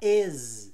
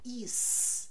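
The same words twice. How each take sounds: First: The word ends with a buzzing Z sound. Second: The word ends with a hissing S sound. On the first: The speaker calls it right. "se fala is, ... o S tem som de Z, não de S" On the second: The speaker calls it wrong. "não se fala is"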